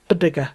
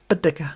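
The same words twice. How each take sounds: Both takes have the same delivery.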